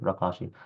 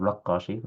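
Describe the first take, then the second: First: رقاشي with a single, undoubled q; light qaf. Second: رقاشي with the qaf wrongly doubled. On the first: Teacher giving the correct name, single qaf in رقاشي. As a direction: say رقاشي lightly, short a before one q. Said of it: "بفتح الراء وتخفيف القاف". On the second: Teacher showing students the mistake, doubled qaf in رقاشي. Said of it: "وتخفيف القاف. So, not". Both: Shown as a demonstration.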